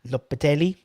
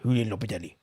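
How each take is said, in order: First: It is said with an Italian-sounding accent. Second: It is said with a Russian-sounding accent.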